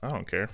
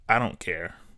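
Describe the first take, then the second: First: It is said lightly and casually. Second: It is said in a harsh, mean tone. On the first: The speaker honestly has no preference. The speaker calls it right. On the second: The speaker is dismissive and annoyed. The speaker calls it wrong. "In their head is like"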